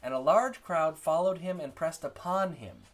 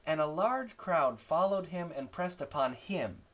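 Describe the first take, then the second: First: Higher, louder reading, "upon" stressed and "him" falling away. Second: Slow, higher reading with the final "him" stressed. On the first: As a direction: lean on "upon", let "him" drop. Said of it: "That's how you read it". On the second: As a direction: wrongly land the sentence on "him". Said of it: "you wouldn't say". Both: Shown as a demonstration.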